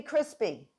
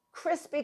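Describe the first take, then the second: First: Said in the usual way. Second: "crispy" said high and delighted; emphatic high crispy. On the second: Shown as a demonstration. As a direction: pitch "crispy" up with relish.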